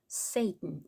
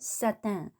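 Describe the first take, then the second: First: It is pronounced the English way. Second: It is pronounced the French way. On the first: "영어로는 Satan, Satan 이렇게 발음을 하고요" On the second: "프랑스어로는 Satan 이렇게 한다고 했습니다"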